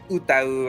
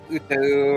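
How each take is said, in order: First: The word ends with an 'ow' sound. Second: The word ends with an 'oo' sound. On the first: "the correct pronunciation way" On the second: "The American way"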